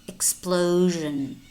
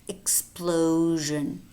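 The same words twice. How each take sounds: The two takes are said the same way.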